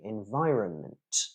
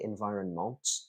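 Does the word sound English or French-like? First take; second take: English; French-like. First: The word has an English vowel throughout. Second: The word has a French-like nasal vowel. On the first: The speaker calls it right. "it should be environment" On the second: The speaker calls it wrong. "it shouldn't be environment"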